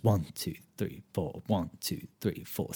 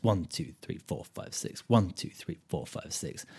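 First: A teacher counting four four aloud. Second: A teacher setting six eight against four four; six eight count. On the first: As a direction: count one two three four slowly, a strong one and soft after. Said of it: "Remember that, uh, four four goes". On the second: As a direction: count six in a bar, only the one spoken full. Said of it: "six eight goes". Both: Shown as a demonstration.

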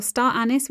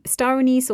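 First: "anise" as ANN-iss, first syllable stressed; American pronunciation. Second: Said in the usual way. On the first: Shown as a demonstration. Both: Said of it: "is pronounced as star anise in America".

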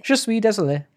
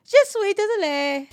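First: "Je suis désolé" said higher in a proper French accent; French demo. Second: "Je suis désolé" high and loud in a hammed-up French accent; bad French accent. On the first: Correcting her French, "Je suis désolé" in French accent. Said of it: "Is that how you say it?". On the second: Copying her partner, "Je suis désolé" in an overdone French accent. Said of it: "try out different accents". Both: Shown as a demonstration.

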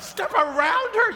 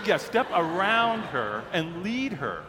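First: Very high-pitched comic shriek of disbelief; hammed-up, shrill incredulous echo. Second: Slow, deliberate imitated instruction; unfazed staffer spelling it out slowly; matter-of-fact insistence. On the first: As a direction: squeal the question in mock panic. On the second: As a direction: repeat it patiently, word by word. Staffer calmly repeats the instruction.

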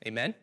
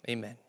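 First: AMEN rising sharply at the end, as a question; "Amen?" lifted to invite a response. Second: AMEN said quietly, without any questioning lift; soft, final "Amen." to close; closing Amen. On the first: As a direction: ask "Amen?" with an upward lift. Prompts the congregation to respond. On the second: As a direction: settle on "Amen." as a statement. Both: Real, not acted.

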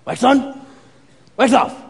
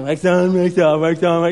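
First: Crisp, separated sensei commands, higher; Mister Miyagi. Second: Half-hearted, run-together chanting; Daniel. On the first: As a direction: demonstrate it firmly, pausing between moves. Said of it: "And he's like". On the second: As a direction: go through the motions carelessly. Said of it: "And Daniel's like". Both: Retold or imitated.

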